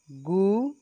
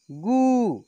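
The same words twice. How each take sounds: First: गु said lightly, rising at the end; gentle short vowel. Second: गु pushed higher with long u, then falling; forceful long vowel. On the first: Teacher showing first of the pair, gentle short गु. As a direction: ease up through a brief गु. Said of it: "एक को धीरे से बोलेंगे". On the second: Teacher showing second of the pair, forceful long गु. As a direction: put force into a stretched गु. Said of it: "बाद वाले को जोर से बोलेंगे". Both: Shown as a demonstration.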